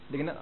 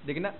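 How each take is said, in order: The two takes are said the same way.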